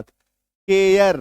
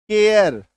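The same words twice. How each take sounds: First: केयर said as 'kyer' with a y glide; with a 'y' glide. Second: केयर said with a plain 'a' vowel, not 'y'. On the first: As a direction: slide through a 'y' in केयर, slowly. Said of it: "य के साथ केयर". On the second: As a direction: say केयर with an open 'a' sound. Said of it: "अ के साथ बोलूंगा". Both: Shown as a demonstration.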